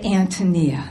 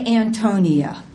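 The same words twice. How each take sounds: First: The stress is on the first syllable. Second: The stress is on the second syllable. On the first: The speaker calls it right. "there is clearly an accent on the first syllable of the word Antonia" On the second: The speaker calls it wrong. "did not even initially pronounce correctly"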